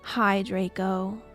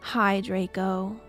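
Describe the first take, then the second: First: It is said in a low, depressed voice. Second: The same.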